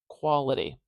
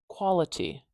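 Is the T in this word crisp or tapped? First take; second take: tapped; crisp. First: The T is a short, dull D-like tap. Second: The T is a clear, crisp T sound. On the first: "I'm saying quality, quality. Do you hear how that's kind of like a dull D sound?" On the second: "I'm not saying quality, quality with a very clear, crisp T sound"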